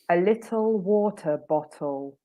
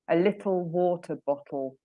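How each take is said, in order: First: The T sounds are pronounced clearly and carefully. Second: The T sounds are almost hidden, loosely pronounced. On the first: "I might say it a bit more correctly than I would say it" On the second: "probably like that. So the T's almost hidden somewhere in the back of my mouth"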